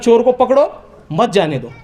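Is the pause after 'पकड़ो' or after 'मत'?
after पकड़ो. The pause comes after 'पकड़ो'.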